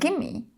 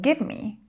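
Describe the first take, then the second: First: The words are run together into one reduced word. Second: The two words are said fully and separately.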